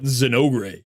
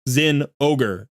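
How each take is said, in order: First: It is said as one blended word. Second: It is said as two words, Zen plus ogre. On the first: The name sounds like a Latin American hero's name. The speaker calls it wrong. "not Zenogre" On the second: The name contains the word ogre. The speaker calls it right. "It's an ogre. She kills an ogre. Zen ogre"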